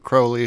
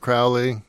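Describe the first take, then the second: First: The name is said in the British way. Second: The name is said in a non-British way.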